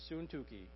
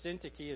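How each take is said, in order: First: The y is said with a u sound. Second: The y is said with an English i sound. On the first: The speaker calls it right. "It's Syntyche. But that sounds goofy. So Y's make a U sound in Greek" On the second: The speaker calls it wrong. "Syntyche is not how you say that word. Not in Greek"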